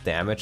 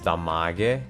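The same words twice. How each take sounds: First: The word is said with standard English pronunciation. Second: The word is said with German-style pronunciation.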